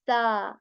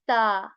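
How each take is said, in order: Both takes have the same delivery.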